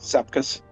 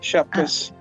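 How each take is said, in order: First: The name begins with a plain 's' sound. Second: The name begins with a 'sh' sound. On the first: This is how Americans say it. "everyone in America calls it Sepkus" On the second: This is how Lithuanians say it. "Lithuanians pronounce Shepkus with a S H sound"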